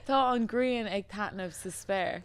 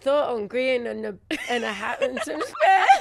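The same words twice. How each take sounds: First: Tá an Grian ag Tatnamh sa spare, slowly in Irish; Irish pronunciation. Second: Tá an Grian stumbling into and a hat and some spare; botched Irish attempt. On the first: Repeating it for the co-host, slow Irish pronunciation of Tá an Grian ag Tatnamh sa spare. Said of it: "say that again". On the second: Co-host trying to repeat it, laughing botched Irish ending in and a hat and some spare. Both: Shown as a demonstration.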